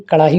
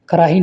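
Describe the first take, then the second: First: Said in the usual way. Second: कराही with a plain r; mispronunciation. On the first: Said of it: "कड़ाही होती है". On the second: Shown as a demonstration. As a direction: say कराही without the flapped sound. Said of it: "कराही नहीं". (कराही में 'ड़' की जगह 'र')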